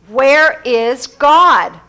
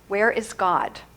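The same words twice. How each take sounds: First: It is said in the strongest, firmest voice. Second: It is said sternly.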